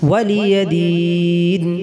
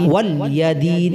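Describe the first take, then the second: First: The l sound is followed by a vowel. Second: The l sound has no vowel after it. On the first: For me is my religion. The speaker calls it right. "অর্থাৎ আমার জন্য আমার কর্মফল" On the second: Guardian of the day. The speaker calls it wrong. "লামের হারকাতের জায়গা যদি সাকিন বা জজম পড়া হয়"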